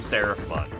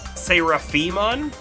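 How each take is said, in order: First: The name is said without the middle 'i' syllable. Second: The name is said with the middle 'i' syllable. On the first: "There's that I in there. I feel like it just should just be Seraphimon" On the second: "You think it's uh, Seraphimon?"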